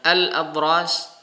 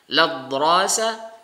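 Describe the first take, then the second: First: The word begins with a vowel before the l. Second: The word begins directly with the l sound. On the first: The speaker calls it wrong. "bukan al-adras" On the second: The speaker calls it right. "tapi langsung menggunakan lam, langsung dinakal"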